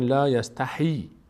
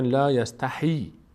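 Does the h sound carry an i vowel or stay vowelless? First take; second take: i vowel; i vowel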